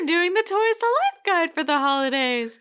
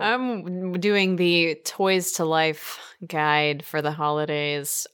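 First: The sentence is said in a lively, excited tone. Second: The sentence is said in a flat, unexcited tone. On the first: The speaker calls it right. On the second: The speaker calls it wrong.

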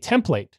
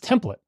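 First: The second syllable has a long A vowel. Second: The second syllable has a short, reduced vowel. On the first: This is the pronunciation used in a programming career. "Long A" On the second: This is the dictionary's pronunciation. "What they have is template"

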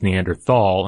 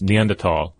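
First: The middle is said with a 'th' sound. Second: The middle is said with a 't' sound. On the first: The speaker calls it wrong. "it's spelled like it's Neanderthal, and I've been saying it wrong for ages" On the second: The speaker calls it right. "it comes from the German, so it's Neanderthal"

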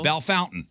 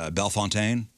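First: The name is said like English 'bell fountain'. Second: The name is said with a French pronunciation. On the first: This is how the locals say the name. "We say Bell Fountain" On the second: This is how the spelling suggests it should sound. "it looks like it should be pronounced Bellefontaine"

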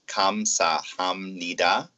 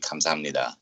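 First: Each syllable is said separately and distinctly. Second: The syllables are run together fluently. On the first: "So the syllables are kamsahamnida" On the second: "in normal speech, you would say kamsahamnida"

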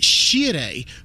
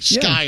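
First: The name begins with a sh sound. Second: The name begins with an sk sound. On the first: This is how the family said it in Italy. "our name was spelled differently and it was pronounced Shire" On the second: This is how officials said it on arrival. "they told my great-grandfather, nah, you're S-C-I-R-E, Skyre"

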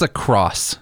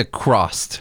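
First: The word ends on the s sound. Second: The word ends with an extra t sound. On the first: The speaker calls it right. "It's just across" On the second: The speaker calls it wrong. "A lot of people say across"

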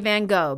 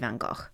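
First: The name is said with an American pronunciation. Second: The name is said with a British pronunciation. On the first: "only Americans say Van Gogh" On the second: "even in England, they'll say Van Gogh"

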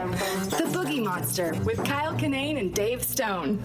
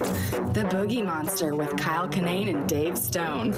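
First: It is said in a sincere, real tone. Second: It is said in a sexy, seductive tone.

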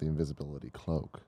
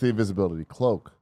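First: The word 'the' is unstressed. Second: The word 'the' is stressed. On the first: It is just an ordinary cloak. The speaker calls it wrong. "not the invisibility cloak" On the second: It is the one unique cloak. The speaker calls it right. "It's the invisibility cloak"

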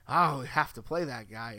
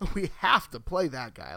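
First: It sounds reluctant and obligated. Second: It sounds eager and enthusiastic. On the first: They are forced to play him for lack of options. "It's not" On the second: He is too good to keep off the field. "it's all about the inflection on we have to play that guy"

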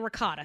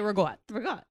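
First: It is said with a general American pronunciation. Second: It is said with a New Jersey pronunciation. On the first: This is how other people say it. "other people say ricotta" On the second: This is how locals say it. "but we say ragotta"

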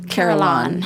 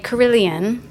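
First: The word is said with an American pronunciation. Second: The word is said with a British pronunciation. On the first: "the Americans would say carillon" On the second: "The British would say carillon"

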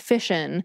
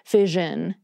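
First: The middle consonant is a voiceless sh sound. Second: The middle consonant is a voiced zh sound. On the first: This is the speaker's own pronunciation. "Personally, I pronounce this with an sh sound" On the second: This is how most other people say it. "most of the people I hear pronouncing it say it with the zh sound"

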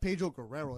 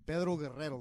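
First: The name is said with an English accent. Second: The name is said with a Spanish accent.

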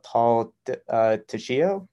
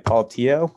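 First: The surname is said with a 'sh' sound. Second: The surname is said without a 'sh' sound. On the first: The speaker calls it wrong. "Lord forgive me for this pronunciation" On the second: The speaker calls it right. "You don't pronounce the C and the H"

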